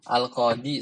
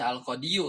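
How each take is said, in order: First: The word ends in a plain 'i' sound. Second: The word ends with an extra 'yu' syllable. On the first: The speaker calls it right. "Al-qadi saja" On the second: The speaker calls it wrong. "Enggak dibaca al-qadiyu kan?"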